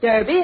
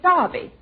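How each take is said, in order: First: It is said with an American pronunciation. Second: It is said with a British pronunciation.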